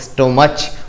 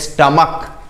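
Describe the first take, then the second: First: The word ends with a ch sound. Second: The word ends with a k sound. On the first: The speaker calls it wrong. "Not स्टोमच" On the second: The speaker calls it right. "इस word में हम इसको पढ़ते हैं स्टमक"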